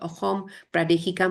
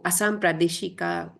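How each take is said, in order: First: The first word has an h sound in the middle. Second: The first word has an s sound in the middle. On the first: This is the Assamese pronunciation. "but in Assamese we pronounce it" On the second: This is the Hindi pronunciation. "in a Hindi we said"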